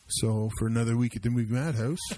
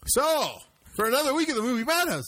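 First: The voice drops low with little energy. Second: The voice is lively with high energy. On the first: The speaker calls it wrong. "your tone just dropped dramatically" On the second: The speaker calls it right. "Is that better?"

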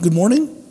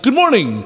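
First: It is said as a question, rising. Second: It is said as a proclamation, falling.

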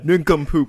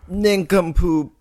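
First: It is said in a lower pitch. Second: It is said in a higher pitch.

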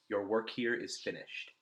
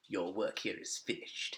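First: It is said in a normal reading voice. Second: It is said in a put-on character voice.

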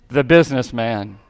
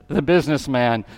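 No difference in how they are said.

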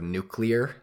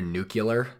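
First: It has no 'y' sound in the middle. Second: It has a 'y' sound in the middle. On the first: The speaker calls it right. "There's no Y in there" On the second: The speaker calls it wrong. "I can't unhear nuclear instead of nuclear. There's no Y in there"

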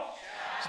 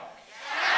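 First: The word is said at normal speaking volume. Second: The word is shouted loudly with strong energy. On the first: "Everyone say shout" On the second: "Shout with me with a shout"

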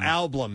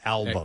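First: The L sound comes after the B. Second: The L sound comes before the B. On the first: This is one person's odd way of saying it. The speaker calls it wrong. "Steve always says Ablum instead of album" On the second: This is the usual way of saying it. The speaker calls it right. "instead of album"

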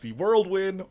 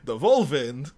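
First: It is said in a plain English accent. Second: It is said in a German accent.

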